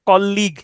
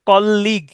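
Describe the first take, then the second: No difference in how they are said.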